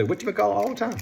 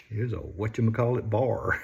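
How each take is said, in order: First: Quoting people. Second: Said in the usual way. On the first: Retold or imitated. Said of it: "I hear people say".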